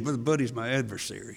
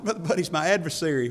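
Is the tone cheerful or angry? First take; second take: angry; cheerful. First: It is said angrily through gritted teeth. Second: It is said cheerfully, with a laugh.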